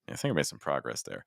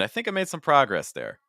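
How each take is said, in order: First: This phrase is pitched lower than the one before. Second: This phrase is pitched higher than the one before. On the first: "or I could go lower" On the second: "where I just shifted all the the the pitches there"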